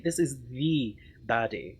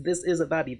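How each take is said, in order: First: "the" said as a drawn-out, emphatic "thee"; slow down and lean hard on "the"; stress on THE. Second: Said in the usual way. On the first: Real, not acted. Corrects "a" to emphatic "the.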